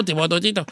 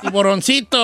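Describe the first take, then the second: First: "tiburoncito" blurred into "tibototito"; mumbled word. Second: "tiburoncito" with every syllable distinct; clearly articulated word. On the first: Host slips back into character, "tiburoncito" mumbled. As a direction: slur "tiburoncito" low, consonants turned to t's. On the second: Asked what he said, host repeats "tiburoncito" clearly. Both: Acted. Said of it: "¿Tu qué?".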